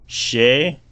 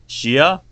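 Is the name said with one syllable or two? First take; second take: one; two. First: The name is said as one syllable. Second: The name is said as two syllables. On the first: The speaker calls it right. "First pronunciation was right. It is Shay" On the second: The speaker calls it wrong. "but then Shia also sounded right"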